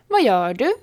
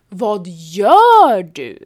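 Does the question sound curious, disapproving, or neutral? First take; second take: neutral; disapproving. First: It is said plainly with no special emphasis. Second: It is said with a disapproving, reproachful emphasis. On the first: The speaker simply wonders what the other is doing. "Betyder rakt upp och ner. Jag undrar vad du gör" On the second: The other person should not be doing that. "Betyder så kan du inte göra"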